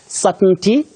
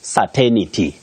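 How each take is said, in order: First: No extra 'ni' sound is inserted mid-word. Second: An extra 'ni' sound is inserted mid-word. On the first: The speaker calls it right. "Just like certainty" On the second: The speaker calls it wrong. "not certainty"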